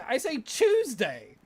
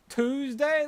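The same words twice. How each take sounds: First: "Tuesday" said as CHOOZ-day; Australian "Tuesday" with a ch sound at the start. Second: "Tuesday" said as TOOZ-day, rising; mocking "Tuesday" with a t sound. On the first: Shown as a demonstration. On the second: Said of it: "That sounds stupid".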